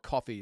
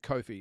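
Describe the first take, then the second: First: It sounds exactly like the word coffee. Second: It sounds different from the word coffee. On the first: The speaker calls it wrong. "It's not coffee" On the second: The speaker calls it right. "I think that's the proper way to announce it"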